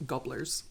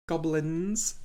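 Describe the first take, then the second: First: "Gobblers" said with a short o and "-blers" ending; "Gobblers", the word slipping out garbled by the accent; mispronounced "Gobblers"; accent mangled word. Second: "Goblins" said clearly with a "-lins" ending, a bit louder; deliberately corrected "Goblins"; careful correction. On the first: Real, not acted. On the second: Shown as a demonstration. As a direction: correct yourself and say "Goblins" cleanly. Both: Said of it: "my accent is making that difficult".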